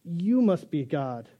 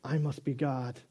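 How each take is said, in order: First: Adoring dog. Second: Smug cat. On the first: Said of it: "the dog says". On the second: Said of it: "Cat says". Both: Pretend.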